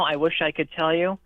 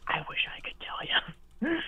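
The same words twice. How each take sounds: First: Said in the usual way. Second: Slow, hushed whisper; soft whisper with a rising end. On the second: Real, not acted. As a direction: whisper the admission, drawing it out. Repeats the admission in a whisper.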